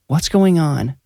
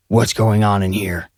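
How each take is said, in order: First: Higher, worried mother's voice; concerned mom. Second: Demanding. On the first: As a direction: ask like an anxious mom. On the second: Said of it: "he demanded". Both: A narrator's reading.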